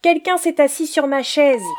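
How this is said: It is said in a medium voice.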